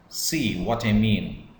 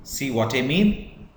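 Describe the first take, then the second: First: Falling tune through "See what I mean", like a statement; simple sentence pitch. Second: Question pitch. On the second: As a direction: lift "mean" sharply to ask it. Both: Shown as a demonstration. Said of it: "or it's a question".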